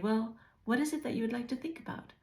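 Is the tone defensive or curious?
curious. The tone sounds soft and curious.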